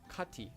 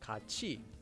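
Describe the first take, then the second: First: The middle consonant is a t sound. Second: The middle consonant is a ch sound. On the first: The speaker calls it wrong. "and not kati" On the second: The speaker calls it right. "would be pronounced as kachi"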